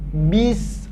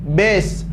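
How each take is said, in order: First: The vowel sounds like i. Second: The vowel sounds like e. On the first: The speaker calls it right. "bunyinya adalah huruf I ... tapi bis" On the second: The speaker calls it wrong. "bukan huruf E, bukan bes"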